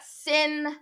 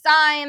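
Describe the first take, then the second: First: The vowel is short, rhyming with pin. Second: The vowel is long, rhyming with line. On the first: The speaker calls it wrong. "We do not pronounce that sin" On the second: The speaker calls it right. "That is sine"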